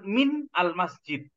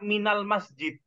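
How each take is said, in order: First: Min and al-masjid are said as separate pieces. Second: Min runs straight into al-masjid as one unit. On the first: The speaker calls it wrong. "bukan min al masjid" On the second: The speaker calls it right. "kita kan mengatakannya minal masjid"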